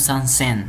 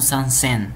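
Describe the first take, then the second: First: The middle consonant is a voiceless s. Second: The middle consonant is a voiceless s.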